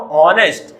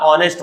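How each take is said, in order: First: हॉनेस्ट with a sounded h, haw-nest; wrong pronunciation. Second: ऑनेस्ट with a silent h, aw-nest; correct pronunciation. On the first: Teacher to children, showing the wrong हॉनेस्ट with a sounded h. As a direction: say हॉनेस्ट breathing the h in front. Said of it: "हॉनेस्ट नहीं बोलते बच्चों". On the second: Teacher to children, giving the right ऑनेस्ट with no h. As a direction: start ऑनेस्ट straight on the vowel, no h. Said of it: "क्या होता है". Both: Shown as a demonstration.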